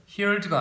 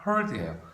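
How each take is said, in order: First: "heard" wrongly said with the vowel of "hear"; "heard" as HEERD, the wrong way; mispronounced heard. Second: "heard" said with an "ur" vowel, as HURD; "heard" without any "ee" sound of "hear"; correct heard. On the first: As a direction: say "heard" like "hear" plus a d, as the mistake. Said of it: "발음 조심해야 돼요". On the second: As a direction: say "heard" to rhyme with "bird". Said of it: "heard가 아니라 heard예요". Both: Shown as a demonstration.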